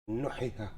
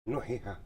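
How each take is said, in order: First: The long vowels are cut short. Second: The long vowels are cut short.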